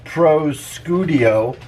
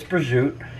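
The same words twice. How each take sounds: First: Every letter is sounded, just as spelled. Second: Sounds are dropped, in the usual spoken form. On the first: "It's spelled prosciutto" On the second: "but it's prosciutto"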